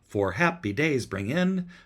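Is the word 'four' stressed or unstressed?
unstressed. The word four is not stressed. The speaker calls it wrong. "It could be read"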